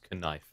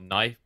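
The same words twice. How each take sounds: First: The word starts with a K sound before N. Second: The word starts with a plain N sound.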